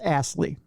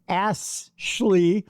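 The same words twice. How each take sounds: First: The name is said without any h sound. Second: The name is said with an audible h sound. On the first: The speaker calls it right. "It's just Ashley" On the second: The speaker calls it wrong. "I shouldn't be pronouncing the H"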